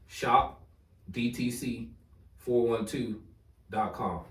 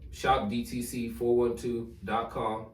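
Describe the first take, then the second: First: It is said slowly and deliberately. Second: It is said at normal conversational speed.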